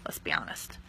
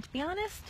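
First: "Let's be honest" whispered low and breathless; conspiratorial whisper. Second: Said in the usual way. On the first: Real, not acted.

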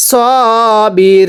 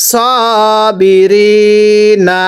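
First: সবিরিন with রি held very long, closed on ন; waqf stop. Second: স বি রি না ending on an open না; unpaused ending. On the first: Teacher shows stopping on noon, long waqf stretch. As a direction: drop the last vowel and stretch before the ন. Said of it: "নুনে সাকিন দিলে কিভাবে পড়ব". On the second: Teacher reads it before the stop rule, open ending. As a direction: keep the vowel on the last না. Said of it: "যদি এরকম জবর থাকে". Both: Shown as a demonstration.

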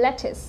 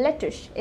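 First: "lettuce" ending in a clean s, "LET-is"; correct pronunciation. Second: "lettuce" ending in sh, "le-tush"; "lettuce" slurred to "LET-ush"; mispronounced lettuce. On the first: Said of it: "it's lettuce". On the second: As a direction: say "lettuce" wrongly with a final sh. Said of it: "not lettuce". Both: Shown as a demonstration.

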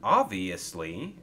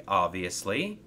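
First: "Obviously" drawn out slowly, rising at the end; curious question. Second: Said in the usual way. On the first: Acted. Thomas echoes Coldy's word "Obviously", slow and curious. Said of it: "asked Thomas curiously".

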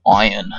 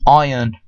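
First: Said in the usual way. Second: Iron in an Australian accent, eye-un. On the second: Shown as a demonstration. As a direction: say Iron the Aussie way, no r. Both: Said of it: "Iron sounds cool in an Australian accent".

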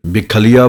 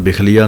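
First: ਬਿਖਲੀਆ as "bik-khaliya", weighty double kh; doubled kh. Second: ਬਿਖਲੀਆ as "bikhliya", light single kh; single-kh misreading. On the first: Teacher modelling correct reading, ਬਿਖਲੀਆ with doubled kh. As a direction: press the kh in ਬਿਖਲੀਆ, then "aliya". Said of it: "ਅੱਧਕ ਖੱਖੇ ਉੱਤੇ ਲੱਗੇਗੀ". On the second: Teacher showing what not to say, ਬਿਖਲੀਆ as "bikhliya". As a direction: run ਬਿਖਲੀਆ together without doubling. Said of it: "ਇਹਨੂੰ ਬਿਖਲੀਆ ਨਹੀਂ ਕਹਿਣਾ ਹੈ". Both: Shown as a demonstration.

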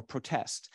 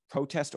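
First: ProTEST, stressed on the second syllable as a verb; "protest" said slowly with the weight on TEST. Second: PROtest, stressed on the first syllable as a noun; "protest" said slowly with the weight on PRO. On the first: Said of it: "the verbs on the second syllable". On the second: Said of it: "nouns have the stress on the first syllable". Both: Shown as a demonstration.

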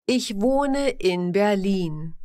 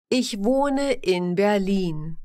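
The two takes are said the same way.

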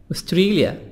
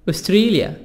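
The two takes are said the same way.

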